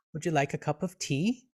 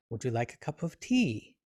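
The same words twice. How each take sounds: First: "tea" rising upward at the end; questioning rise. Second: Softer question, falling on "tea"; quiet offer with a falling "tea". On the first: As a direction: lift the voice on "tea" as a polite offer. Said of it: "with the sound of the word sort of rising upward". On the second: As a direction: ask gently, letting "tea" come down. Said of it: "with a different kind of tone". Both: Shown as a demonstration.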